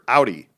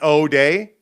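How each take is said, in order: First: The first vowel sounds like 'ow'. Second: The first vowel sounds like 'oh'. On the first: The speaker calls it right. "like ow. Ow, that hurt. ... That's how I say it" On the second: The speaker calls it wrong. "Is that O day? ... Don't think that's it"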